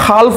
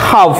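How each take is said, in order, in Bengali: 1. এই শব্দে L ধ্বনিটি উচ্চারিত হয়। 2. এই শব্দ থেকে L ধ্বনিটি বাদ যায়। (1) "এও আমি হাল্ফ বুলি পঢ়া নাই" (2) "এলটো প্ৰনাউন্সিয়েশ্যন হোৱা নাই"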